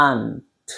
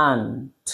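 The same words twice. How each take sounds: Both takes have the same delivery.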